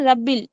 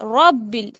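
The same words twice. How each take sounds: First: The r sound is light and thin. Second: The r sound is full and heavy. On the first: The speaker calls it wrong. "बहुत सारे बच्चे बोलते हैं रब्बिल" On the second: The speaker calls it right. "रॉ पूर पढ़ा जाएगा"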